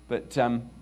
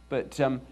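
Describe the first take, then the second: The two takes are said the same way.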